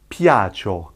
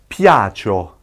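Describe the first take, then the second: The two takes are said the same way.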